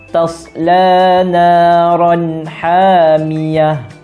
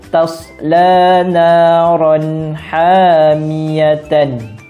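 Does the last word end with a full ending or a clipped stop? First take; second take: clipped stop; full ending. First: The last word ends clipped with a soft '-h'. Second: The last word ends with a full '-tan' ending. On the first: The reader stops here. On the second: The reading continues on.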